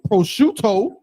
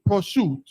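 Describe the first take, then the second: First: The word ends with its final vowel sounded. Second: The word ends without its final vowel. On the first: "They won't say prosciutto" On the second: "They'll say prosciutto and drop off syllables"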